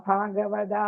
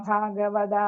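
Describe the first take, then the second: No difference in how they are said.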